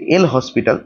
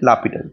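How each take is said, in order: First: It is said as written, with an 's' sound. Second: It is said without any 's' sound. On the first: This follows the written spelling. "এটার spelling হচ্ছে" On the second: This is how the name is actually pronounced. "এর actual উচ্চারণ হচ্ছে"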